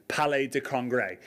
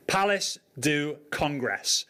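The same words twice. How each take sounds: First: "Palais de Congrès" in a light French accent. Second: Said in the usual way. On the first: Shown as a demonstration. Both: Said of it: "but with a French accent".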